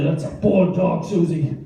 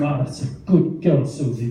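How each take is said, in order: First: Mild telling-off, pitched slightly up; scolding tone. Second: Gentle praise for a dog; nice tone. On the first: Owner telling dog it misbehaved, mild scolding tone. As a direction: lightly reprimand a naughty dog. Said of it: "It's tone". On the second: Owner being nice to the dog, mild approving tone. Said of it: "if you're being nice to them". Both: Shown as a demonstration.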